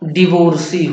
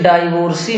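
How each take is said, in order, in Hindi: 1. पहला अक्षर 'di' की तरह बोला जाता है। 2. पहला अक्षर 'dai' की तरह बोला जाता है।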